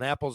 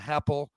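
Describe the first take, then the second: First: The word starts with a plain vowel. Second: The word starts with an added H sound.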